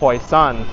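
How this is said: The name is said in Taishanese, as Hoisan. "which is the Taishan"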